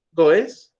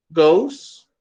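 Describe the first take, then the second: First: "goes" as two syllables, "GO-es"; spelling pronunciation. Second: "goes" as one syllable, rhyming with "nose"; correct pronunciation. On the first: Teacher shows learners the mistake, "goes" read letter by letter as "go-es". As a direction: sound out the E in "goes" separately, as in Spanish. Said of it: "no se pronuncia así". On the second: Teacher models the verb for Spanish-speaking learners, "goes" as one syllable. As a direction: say "goes" with a gliding OH and final s. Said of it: "se pronuncia goes". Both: Shown as a demonstration.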